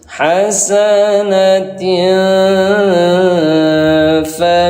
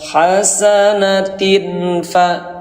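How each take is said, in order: First: The final vowel is held for two beats. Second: The final vowel is cut short. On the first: The speaker calls it right. "berarti diketukin sampai dua kali" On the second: The speaker calls it wrong. "jangan dibaca hasanatin fa"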